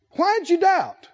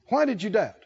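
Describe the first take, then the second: First: Pitched-up rebuke. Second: Said in the usual way. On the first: Retold or imitated. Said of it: "what does he say". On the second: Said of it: "repeated plainly".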